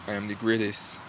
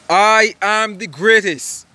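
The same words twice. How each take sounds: First: It is said plainly, without much force. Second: It is said forcefully, with strong conviction. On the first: The speaker does not fully believe it. The speaker calls it wrong. "He didn't just say" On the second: The speaker fully believes it. The speaker calls it right. "He said it like this"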